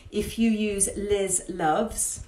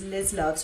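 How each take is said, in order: First: Liz Loves said slowly, each word drawn out, rising at the end; slow and clear so viewers catch the code; clearly spelt out. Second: Said in the usual way. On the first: Shown as a demonstration. Giving viewers the discount code, slow and deliberate. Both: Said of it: "that's all in capitals".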